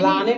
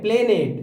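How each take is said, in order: First: The first vowel sounds like 'ah'. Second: The first vowel sounds like 'eh'. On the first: The speaker calls it wrong. "प्लानेट नहीं" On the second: The speaker calls it right.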